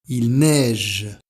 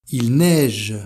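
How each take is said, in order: Both takes have the same delivery.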